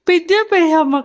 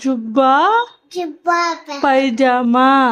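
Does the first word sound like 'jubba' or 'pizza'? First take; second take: pizza; jubba. First: The first word sounds like pizza. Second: The first word sounds like jubba. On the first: The speaker calls it wrong. "పిజ్జా pyjama కాదురా" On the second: The speaker calls it right.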